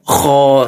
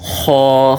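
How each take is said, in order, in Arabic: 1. يُنطق صوت الخاء بحدّة وبصوت عالٍ. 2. صوت الخاء خفيف ولطيف. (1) "Membaca huruf kha masih seperti ini" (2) "samarkan lebih sedikit ketika melafalkan huruf kha"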